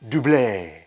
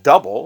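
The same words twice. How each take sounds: First: It does not sound like the English word 'double'. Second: It sounds like the ordinary English word 'double'. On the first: The speaker calls it right. "it's actually pronounced Double" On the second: The speaker calls it wrong. "that's basically what their name looks like it is"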